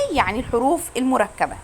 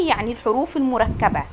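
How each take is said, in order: Both takes have the same delivery.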